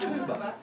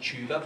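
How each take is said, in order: First: It is said in an Australian kid's accent. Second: It is said in the speaker's own accent.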